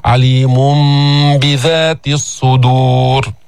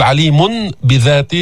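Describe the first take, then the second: First: "alimum-bidhat", slow and drawn out; iqlab. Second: عليم بذات with a clear n before the b; plain n ending on عليم before بذات; unconverted tanween. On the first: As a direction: chant عليم بذات الصدور with a long hummed m before b. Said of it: "الأسهل تقول". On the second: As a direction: say "alimun bidhat", no merging. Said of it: "بدل ما تقول". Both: Shown as a demonstration.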